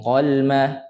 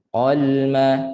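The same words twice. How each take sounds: First: "qalma" hurried, with little time on the l; too fast. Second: "Qalma" with the l held for a moment; unhurried lam. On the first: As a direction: hurry through the l of "qalma". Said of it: "laju sangat tak nak". ("qalma" laju sangat) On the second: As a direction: linger on the l of "Qalma". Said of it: "ada tempo sikit lam kan". ("Qalma" ada tempo pada lam) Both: Shown as a demonstration.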